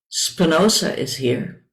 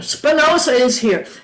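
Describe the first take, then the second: First: It is said at a normal, softer volume. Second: It is said a little more loudly.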